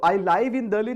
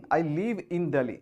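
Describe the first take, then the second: First: "live" with an eye vowel, like five; "live" rhyming with drive; wrong long-i reading. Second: "live" said as liv, no eye sound; correct verb pronunciation. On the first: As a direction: say "live" as in live broadcast. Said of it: "नहीं". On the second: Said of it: "इसका जो pronunciation होगा वो होगा लीव". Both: Shown as a demonstration.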